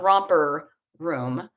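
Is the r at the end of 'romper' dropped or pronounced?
pronounced. The r sound in 'romper' is pronounced. "not romper room"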